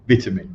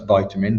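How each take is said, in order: First: It is said with a non-American pronunciation. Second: It is said with an American pronunciation. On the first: The speaker calls it right. "I'm going to use the correct correct pronunciation" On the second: The speaker calls it wrong. "for my American friends, that's vitamin"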